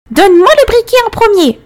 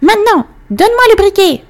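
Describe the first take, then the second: First: Put-on high, loud furious old witch; screeching crone demand; angry witch voice. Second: Put-on high greedy old witch; shrill demanding crone. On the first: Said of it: "La vieille dame arrêta de le hisser". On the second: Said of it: "la vieille dame le regarda avec avidité". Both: A narrator's reading.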